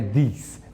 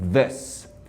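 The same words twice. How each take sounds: First: The vowel is a tense, long 'ee' sound. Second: The vowel is short, open and relaxed. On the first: The speaker calls it wrong. "não é this" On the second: The speaker calls it right. "não é um som de I propriamente dito, é um som de A"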